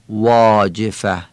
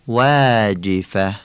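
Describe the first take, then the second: First: The long vowel is a full, broad 'aa'. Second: The long vowel is thinned toward a long 'e'. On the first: The speaker calls it wrong. "نمیگیم واجفه" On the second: The speaker calls it right. "میگیم واجفه، یعنی ایه کشیده خوانده میشه"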